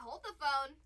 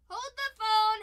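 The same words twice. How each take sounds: First: Said in the usual way. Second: Higher, much louder call-out; excited call. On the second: Real, not acted. Yelling to the stream as a gold card appears. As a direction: shout it as the big card shows up.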